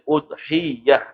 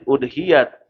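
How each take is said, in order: First: The 'y' sound is held and doubled. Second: The 'y' sound is short and single. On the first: "kalau dengan tasydid" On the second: "kalau tanpa tasydid"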